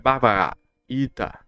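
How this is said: The vowels are partly swallowed, Indian-style. "em indiano é Bhagavad Gita. É assim que eles falam, meio comendo as vogais"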